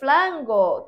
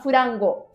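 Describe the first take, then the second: First: The r is replaced by an l sound. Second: An extra vowel is inserted between f and r. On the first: This is how a Chinese speaker says it. "Quem fala assim é chinês, não japonês" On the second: This is how a Japanese speaker says it. "Japonês fala furango"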